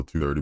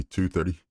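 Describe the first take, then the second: First: Said in the usual way. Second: "two" lifted high and leaned on in "two thirty"; correcting stress on two. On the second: Real, not acted. Streamer fixing the time for viewers, punching "two". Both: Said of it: "I'm sorry, not twelve thirty".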